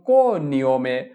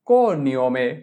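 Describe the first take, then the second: The two takes are said the same way.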